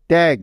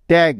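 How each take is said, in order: Both takes have the same delivery.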